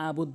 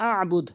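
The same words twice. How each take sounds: First: "আবুদ" with a simple a; wrong pronunciation. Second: "আবুদ" with held mid-throat ayn; correct ayn. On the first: Teacher citing the mistake, "আবুদ" without ayn. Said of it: "এখানে আবুদ বলে". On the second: Teacher correcting, "আবুদ" with throat ayn. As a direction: press the throat after a in "আবুদ". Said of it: "সঠিক উচ্চারণ হচ্ছে". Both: Shown as a demonstration.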